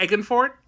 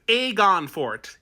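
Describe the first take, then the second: First: "Egan" as EGG-un, quick and questioning; "Egan" said EGG-un, the accented way; accented pronunciation. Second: "Aegon" drawn out slowly as AY-gon; slow, pointed correction of "Aegon" to AY-gon; corrected pronunciation. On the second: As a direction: say "Aegon" carefully with a long AY. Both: Acted. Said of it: "Oh, sorry, that's just the accent".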